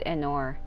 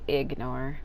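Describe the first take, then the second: First: The word is said without a G sound. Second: The word is said with a clear G sound.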